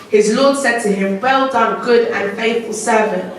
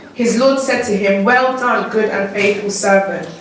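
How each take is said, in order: The two takes are said the same way.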